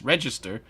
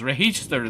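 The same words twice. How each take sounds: First: It is said with a standard American pronunciation. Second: It is said with a Spanish-influenced pronunciation. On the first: This is the usual American way to say it. The speaker calls it right. "that it's register" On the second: This is how a Spanish-speaking woman says it. The speaker calls it wrong. "every time she says register"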